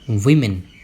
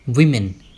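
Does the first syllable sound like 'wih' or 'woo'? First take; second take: wih; wih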